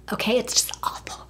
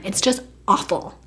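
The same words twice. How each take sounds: First: Hushed, voiceless whisper; whispered aside. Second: Said in the usual way. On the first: Real, not acted. Confiding to viewers about her boyfriend's flaws, whispered. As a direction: drop to a whisper for emphasis. Same words repeated in a whisper.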